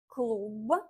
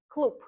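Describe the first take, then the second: First: The final consonant is a voiced b. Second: The final consonant is a voiceless p. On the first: "the way it's written" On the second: "the way I would pronounce it as a native speaker"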